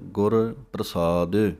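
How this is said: The two words are said with a break between. "ਟਕਸਾਲ ਦੇ ਅੰਦਰ ਅਲੱਗ ਕਰਾਇਆ ਜਾਂਦਾ ਹੈ"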